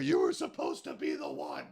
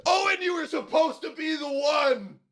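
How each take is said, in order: First: Low, soft, much quieter movie-villain line; a hushed, heavy Vader-style delivery; Darth Vader impression. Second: High, shouted movie-villain lament; mock dramatic Jones. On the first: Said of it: "Darth Vader and Luke Skywalker". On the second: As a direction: overdramatic betrayed wail, hammed up. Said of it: "He's like".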